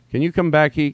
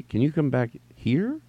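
First: Puzzled reader. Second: Slower, questioning stretch on "here"; working it out. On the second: Reader almost solving the typo, slow and tentative. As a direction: sound it out slowly up to "here". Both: Acted. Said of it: "and then here's you".

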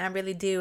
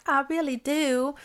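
First: Said in the usual way. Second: Imitating the friends' foreign accent, higher; playful higher mock accent on I really do. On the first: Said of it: "And she's like". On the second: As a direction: tease her by copying the friends' accent. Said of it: "with their accent".

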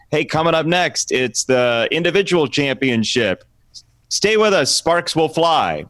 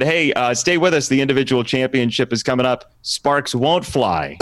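First: Upbeat sports announcer tease; punny broadcast tease; announcer read. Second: Retaken sports promo line; corrected announcer tease; announcer read. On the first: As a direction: sell it like a TV promo. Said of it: "read through the script once, just do it straight". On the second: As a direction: deliver the fixed tease like a broadcaster. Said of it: "let me do it again". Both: Retold or imitated.

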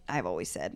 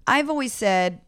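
First: Dropped far lower and softer; mock solemn. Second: Said in the usual way. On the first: Guest restarts a personal motto for laughs, mock solemn. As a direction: repeat it in a put-on deep, hushed voice.

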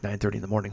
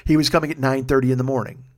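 First: Low grumble. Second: Said in the usual way. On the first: Real, not acted. Disgusted repeat of early time.

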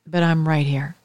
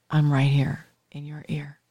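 First: Said in the usual way. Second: Hushed, as if at the listener's ear; intimate near-whisper. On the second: Shown as a demonstration. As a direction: drop to a close, confiding whisper. Showing intimacy of radio voice.

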